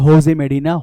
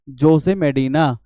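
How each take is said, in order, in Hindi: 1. नाम की शुरुआत H की आवाज़ से होती है। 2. नाम की शुरुआत J की आवाज़ से होती है। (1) "जे को एच बोलते हैं" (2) "जे ओ एस ई"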